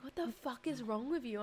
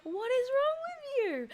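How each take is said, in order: First: Said in the usual way. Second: Much higher, louder, whining like near tears; mock whiny partner. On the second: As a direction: play the fed-up partner as a wailing whine. Partner's exasperated reply, retold.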